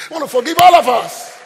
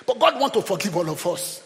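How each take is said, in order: First: "forgive all of us" pushed higher and louder; emphatic repeat. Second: Said in the usual way. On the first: Real, not acted. Preacher repeating the promise to the church, "forgive all of us" in a loud, emphatic voice. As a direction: drive home "forgive all of us" with a raised, forceful voice.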